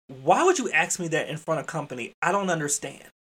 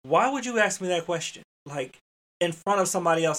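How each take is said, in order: First: Mildly exasperated scolding question; irritable. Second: Higher, irritated parent's reproach; fatherly scolding. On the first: Educator to staff member after company left, mildly irritable. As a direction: scold like a father with his own child. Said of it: "it was irritable". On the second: Father-like rebuke to a staff member, irritable. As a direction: take them to task like your own child. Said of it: "the tone that I would have used with my own child". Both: Retold or imitated.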